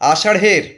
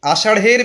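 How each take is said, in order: No difference in how they are said.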